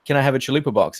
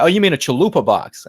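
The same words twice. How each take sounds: First: Chalupa box said the Aussie way; Australian accent. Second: Imitated American server saying chalupa box; American accent. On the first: Retold or imitated. Aussie customer ordering at Taco Bell, Australian accent. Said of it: "I'm the Aussie one here". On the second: Fast food worker repeating the order back, imitated American accent. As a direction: correct the customer in mock American. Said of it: "speak in an American accent".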